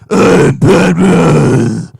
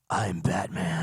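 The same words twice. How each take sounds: First: It is spoken in a full, unwhispered voice. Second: It is spoken in a throaty whisper. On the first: The speaker calls it wrong. "it transformed from that to like" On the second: The speaker calls it right. "more like a throaty whisper"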